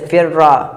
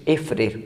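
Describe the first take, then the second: First: The doubled consonant ends with an a vowel. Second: The consonants are not merged and no final vowel. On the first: "दूसरे को फ़तह" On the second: "बग़ैर इदगाम"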